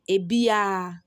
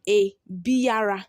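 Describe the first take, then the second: First: The R sound is dropped entirely. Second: The R sound is clearly pronounced. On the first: "when you are pronouncing it, you pronounce it as" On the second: "That's how it is written"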